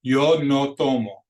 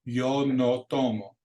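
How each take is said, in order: First: Slow, short pure O with no glide; "Yo no tomo" each O clipped, no ow; slow model line. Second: "tomo" with short pure O's; slow repeat. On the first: Teacher models the pure Spanish O, slow and firm. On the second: Teacher repeats the line for students to echo. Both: Shown as a demonstration. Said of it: "like the word no".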